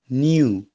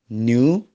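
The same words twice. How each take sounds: First: The word is said with a British accent. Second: The word is said with an American accent. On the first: "British pronunciation" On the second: "American pronunciation"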